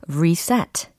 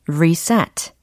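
Both takes have the same delivery.

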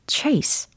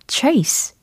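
First: It has an ay vowel and ends in s. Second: The same.

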